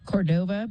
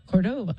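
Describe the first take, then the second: First: The stress is on the second syllable. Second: The stress is on the first syllable. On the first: The speaker calls it wrong. "I'm going to mispronounce his name" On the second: The speaker calls it right. "it has the accent in the front"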